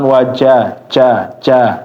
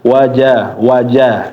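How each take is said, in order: First: The ja sound ends with an extra echoing ca. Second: The ja sound ends cleanly without extra sound. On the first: The speaker calls it wrong. "jangan wajah ca ca ya" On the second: The speaker calls it right. "Wajah wajah ya"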